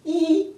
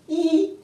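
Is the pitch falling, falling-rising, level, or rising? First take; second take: level; level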